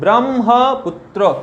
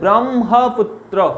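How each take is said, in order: First: The m sound comes before the h sound. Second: The m sound comes before the h sound.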